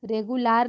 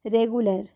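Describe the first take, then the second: First: रेगुलर said with a long 'laar' ending; mispronunciation demo. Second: रेगुलर with a short schwa, 're-gu-ler'; correct pronunciation demo. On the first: Teacher showing learners what to avoid, रेगुलर with open 'aa' in the last syllable. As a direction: say रेगुलर wrongly as 're-gu-LAAR'. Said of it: "रेगुलर नहीं". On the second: Teacher correcting for learners, रेगुलर with short 'ler' ending. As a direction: end रेगुलर on a short 'uh' sound. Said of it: "अ के sound में होगा". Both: Shown as a demonstration.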